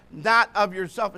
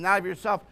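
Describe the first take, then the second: First: "not" hit louder and held longer; stress on NOT. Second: Said in the usual way. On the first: Shown as a demonstration. Preacher repeating the verse to the church, stressing "not". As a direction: lean hard on the word "not".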